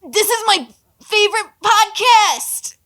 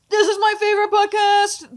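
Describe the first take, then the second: First: It is said in an Ash Ketchum voice. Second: It is said in her normal voice.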